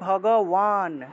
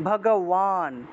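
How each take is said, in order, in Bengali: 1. শেষ অক্ষরটি w দিয়ে শুরু। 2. শেষ অক্ষরটি w দিয়ে শুরু।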